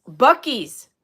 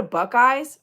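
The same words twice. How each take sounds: First: "Buc-ee's" said as BUCK-eez; corrected pronunciation. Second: "Buckeyes" said with EYES as second syllable; mispronounced name. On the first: Fixing a misread store name, "Buc-ee's" as BUCK-eez, louder. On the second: Reading a viewer's question, "Buckeyes" mispronounced as buck-eyes. Reads name wrong, then corrects it. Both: Real, not acted.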